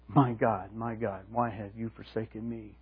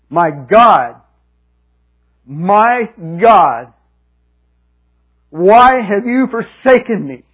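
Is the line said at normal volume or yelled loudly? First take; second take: normal; yelled. First: It is said at a normal, calm volume. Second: It is yelled in a very loud voice. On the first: It is how the words look on the page. "It's one thing to write" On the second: It is how the cry actually sounded when heard. "I was going to yell with a loud voice"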